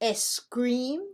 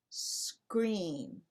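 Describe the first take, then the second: First: A short e vowel comes before the S. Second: It starts directly with the S sound. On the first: The speaker calls it wrong. "Do you say scream? No" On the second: The speaker calls it right. "you have to say scream"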